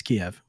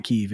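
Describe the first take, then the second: First: Kiev said in two syllables, "kee-EV"; the preferred "kee-ev" pronunciation of Kiev. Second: Kyiv said as one syllable, "keev"; the rejected "keev" pronunciation of Kyiv. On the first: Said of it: "I'm gonna keep calling it Kiev". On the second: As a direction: say Kyiv to rhyme with "sleeve". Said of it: "it's not Kyiv". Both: Shown as a demonstration.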